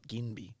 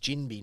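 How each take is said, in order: First: The name begins with a hard g sound. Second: The name begins with a soft j sound. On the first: The speaker calls it wrong. "not Ginby" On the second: The speaker calls it right. "it's Jinby"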